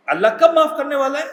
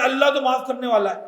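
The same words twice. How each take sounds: First: کب lifted with a rising question tune; stress on کب. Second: Complacent voice. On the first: Shown as a demonstration. Teacher to pilgrims, challenging them with کب rising. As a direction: hit the word کب and let the question rise. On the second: Retold or imitated. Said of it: "تو اللہ ایسے معاف کرنے والا بھی نہیں".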